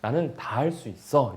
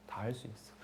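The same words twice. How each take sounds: First: Said in the usual way. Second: Soft echo. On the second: Acted. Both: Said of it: "이렇게 하는 거예요".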